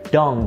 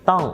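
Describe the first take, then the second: First: The word begins with a voiced d sound. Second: The word begins with an unaspirated t sound. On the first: The speaker calls it wrong. "they tend to mispronounce this D T and pronounce it D" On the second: The speaker calls it right. "the word that starts with the D T sound that you want to pronounce"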